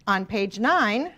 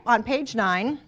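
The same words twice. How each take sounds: First: "On page nine" stretched slowly, each word held; slow, drawn out. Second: Said in the usual way. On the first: Shown as a demonstration. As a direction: lean on "page nine" slowly so they find it. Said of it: "teacher stresses page number". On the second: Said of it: "teacher repeats page number".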